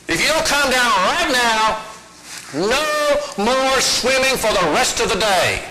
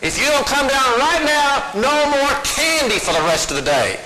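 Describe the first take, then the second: First: Mother's warning, pitched a little up; half-serious playground threat, slow at the end; mild mock threat. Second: Higher, strained mother's warning, pushed up; the threat again, pitched much higher as she loses it; shriller mock threat. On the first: Mother threatens daughter on monkey bars, mildly stern. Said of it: "And her mama said". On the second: Mother escalates her threat to ignoring daughter, higher and strained. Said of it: "Sarah just ignored her".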